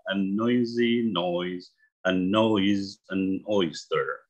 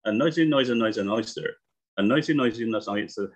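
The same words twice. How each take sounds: First: Slow, careful tongue twister, each word clear; read slowly. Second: Quick tongue twister run; read fast. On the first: Teacher shows students the tongue twister slowly, slow and careful. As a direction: ease through it slowly so students follow. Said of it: "bacanya perlahan aja". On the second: Teacher shows students the tongue twister at speed, rushed and quick. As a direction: rattle off noisy as fast as you can. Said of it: "Lalu kita baca cepat". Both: Shown as a demonstration.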